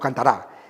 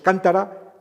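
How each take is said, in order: First: The stress is on the last syllable. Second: The stress is on the first syllable. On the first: "en la sílaba última" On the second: "en la sílaba antepenúltima"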